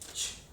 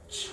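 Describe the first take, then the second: First: The ch is made at the front of the mouth. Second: The ch is made further back in the mouth. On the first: The speaker calls it wrong. "No es" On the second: The speaker calls it right. "la pronunciación no va a ser frontal, sino va a ser media o posterior"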